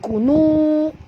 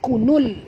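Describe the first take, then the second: First: The word ends with a drawn-out vowel. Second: The word ends with a short vowel and l. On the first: The speaker calls it wrong. "bukan kunu, jangan panjangkan pada waw ni" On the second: The speaker calls it right. "jadi kita bunyikan kunul"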